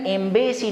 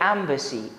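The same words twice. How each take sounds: First: The last syllable is a full 'ay-see'. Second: The last syllable is a weak 'uh-see'. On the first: The speaker calls it wrong. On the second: The speaker calls it right.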